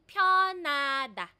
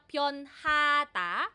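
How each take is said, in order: First: The H sound is dropped entirely. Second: The H sound is clearly pronounced. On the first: "nagiging silent si hiyut" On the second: "imbis na pyonhata"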